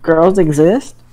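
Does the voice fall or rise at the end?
rise. The voice rises at the end. It asks whether girls exist. "Was that a question or a statement?"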